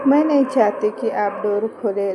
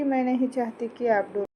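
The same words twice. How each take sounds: First: Louder, emphatic refusal; insistent plea. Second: Said in the usual way. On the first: A narrator's reading. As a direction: plead forcefully, much louder. Plea repeated with much more force. (ज़ोर देकर, ऊँची आवाज़ में विनती)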